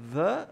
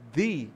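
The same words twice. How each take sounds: First: Said in the usual way. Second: THE with a long ee vowel; THE as "thee". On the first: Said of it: "então a pronúncia do". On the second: Shown as a demonstration. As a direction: say THE to rhyme with "see". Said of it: "é o the do artigo definido".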